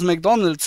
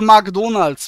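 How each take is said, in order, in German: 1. Der Name wird in der Standardaussprache ausgesprochen. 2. Der Name wird mit einem spöttischen ausländischen Akzent ausgesprochen. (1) "wobei das McDonald's heißt?" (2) "Oder sagst du auch, ich arbeite für McDonald's"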